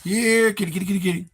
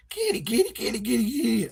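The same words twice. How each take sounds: First: Louder, higher kitty call; second cat call. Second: High sing-song kitty call; calling the cat. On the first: Streamer retries calling the cat louder. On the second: Streamer calls his cat in a high voice. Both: Shown as a demonstration. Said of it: "I can't even do that right".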